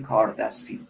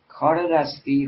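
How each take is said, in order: First: No linking vowel joins the two words. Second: A linking 'e' vowel joins the two words.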